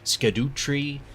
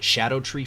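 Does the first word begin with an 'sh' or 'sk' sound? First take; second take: sk; sh. First: The first word begins with an 'sk' sound. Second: The first word begins with an 'sh' sound. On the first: The speaker calls it wrong. "Many people have been pronouncing this as Scadu Tree or Skadoo Tree" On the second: The speaker calls it right. "Scadu in Old English is pronounced Shadow"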